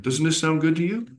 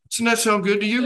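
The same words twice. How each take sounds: First: High, friendly sales question; salesman pitch. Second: Higher, louder sales pitch; pushy salesman. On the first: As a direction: coax them to agree. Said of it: "shake your head yes when you're saying". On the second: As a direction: lean in on the close. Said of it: "How would it be?". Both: Shown as a demonstration.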